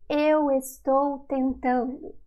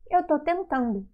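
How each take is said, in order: First: The verb is said in full as estou. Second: The verb is shortened to a single syllable. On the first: This is the form not used in daily speech. "we do not say eu estou tentando" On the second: This is the form used in daily speech. "we say eu tô tentando"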